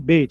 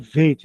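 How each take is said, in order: First: It begins with a B sound. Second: It begins with a V sound. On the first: The letter has the dot inside it. "o bait" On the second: The letter has no dot inside it. "se eu tiro o ponto, ponto fica veit, né? Fica V"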